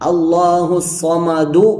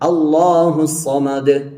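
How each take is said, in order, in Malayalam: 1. അവസാന വാക്ക് ഹ്രസ്വമായ u സ്വരത്തോടെയാണ് അവസാനിക്കുന്നത്. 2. അവസാന വാക്ക് സ്വരമില്ലാത്ത വ്യഞ്ജനത്തിലാണ് അവസാനിക്കുന്നത്. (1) "ദാലിന് ലമ്മ് ചെയ്യണം" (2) "ശ്വാസം വിട്ട് അടുത്ത ശ്വാസം എടുത്തതിന് ശേഷം ഓതുന്ന രീതി"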